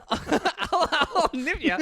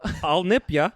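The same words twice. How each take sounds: First: Much higher, very slow mock Australian drawl; echoing friend's Australian vampire bit, high and slow; mimicking Aussie vampire. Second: Playful Australian vampire, a bit higher; mock-Australian vampire teasing. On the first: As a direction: stretch out the Australian vampire line. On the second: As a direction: growl a mock Aussie nip threat. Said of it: "I'm an Australian vampire".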